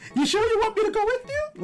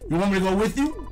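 First: It is said in a Mario impression voice. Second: It is said in his normal voice.

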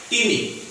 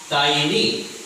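First: The first vowel sounds like 'ee'. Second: The first vowel sounds like 'eye'. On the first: The speaker calls it wrong. "They pronounced like teeny" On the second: The speaker calls it right. "But the real pronunciation according to expert, it is tiny"

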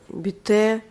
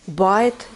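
First: The name is said as two syllables, 'bee-teh'. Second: The name is said as one syllable, 'bite'. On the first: "А я его почему-то называю бите" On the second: "Типа кофе называется не бите, а байт"

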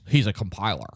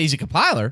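First: The voice sounds dismissive and negative. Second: The voice sounds impressed and positive. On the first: Being a compiler is a bad thing. "It's only bad if you say it like this. ... Then it sounds bad" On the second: Being a compiler is a great thing. "you're like, oh, shit, yeah"

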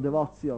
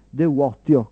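First: The consonant before the ending is a ts sound. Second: The consonant before the ending is a plain t. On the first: This is the church Latin pronunciation. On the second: This is the ancient classical Latin pronunciation.

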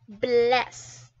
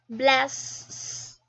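First: The final s is a single short sound. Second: The final s is doubled and drawn out. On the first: The speaker calls it right. "you can only hear 1 sound" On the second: The speaker calls it wrong. "If I put another S here, then it would sound like this"

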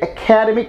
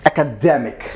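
First: The stress falls on the second syllable. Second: The stress falls on the third syllable. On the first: The speaker calls it wrong. "when you say like academic, you actually put stress on care" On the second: The speaker calls it right. "So that should be academic"

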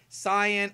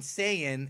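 First: The first vowel sounds like 'ah' in 'father'. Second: The first vowel sounds like 'ay' in 'day'. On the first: This is how it is meant to be said. "it's supposed to be like Saiyan" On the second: This is how the dub says it. "You have Aureli, Tapion, and Saiyan"

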